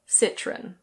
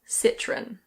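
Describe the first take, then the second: First: It is said with a British English pronunciation. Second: It is said with a British English pronunciation.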